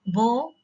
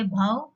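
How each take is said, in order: First: Bow with a long O, rhyming with go; "bow" with a rounded oh vowel; bow as in arrow. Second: Bow rhyming with cow; "bhav", the bow you take, rhymes with now; bow as in bending. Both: Shown as a demonstration. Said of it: "or you can also say bhav".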